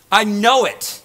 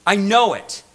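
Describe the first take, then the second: No difference in how they are said.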